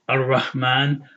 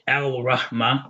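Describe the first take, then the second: First: The l merges into a doubled r sound. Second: The article keeps its l sound before r. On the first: The speaker calls it right. "we say Ar Rahman" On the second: The speaker calls it wrong. "We don't say Al Rahman"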